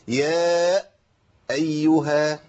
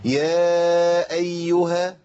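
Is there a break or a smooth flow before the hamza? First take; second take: break; smooth. First: The voice cuts off before a doubled hamza. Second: The voice flows smoothly into a single hamza. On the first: The speaker calls it wrong. "شددت الهمزة" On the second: The speaker calls it right. "كده صح"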